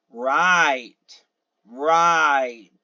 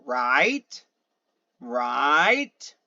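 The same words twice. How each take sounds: First: "right" drawn out, arching down; louder confirming "right" that falls; answering fall. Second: "right" drawn out and rising; questioning rise. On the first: Answering a one-word question, falling tone. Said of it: "you answer that by saying". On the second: Eliciting a question with one word, rising tone. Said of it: "eliciting a question with a single word". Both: Shown as a demonstration.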